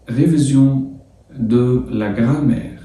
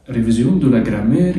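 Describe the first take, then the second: First: French title drawn out slowly for students; slow sounding-out. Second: Said in the usual way. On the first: Shown as a demonstration. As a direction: sound out "ريفيزيون ... دو لا جرامير" slowly, phrase by phrase. Teacher sounds out French lesson title. (نطق العنوان الفرنسي ببطء، جزء جزء)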